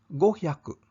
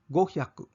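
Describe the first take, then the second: The two takes are said the same way.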